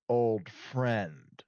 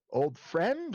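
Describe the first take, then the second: First: Slow, knowing fall on "friend"; loaded emphasis on friend. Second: "friend" drawn out and lifted high; slow, suggestive lift on "friend"; questioning emphasis on friend. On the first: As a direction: let "friend" sink slowly in pitch. Second option in the question. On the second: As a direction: stretch "friend" slowly up in pitch. Asks which kind of old friend. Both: Acted.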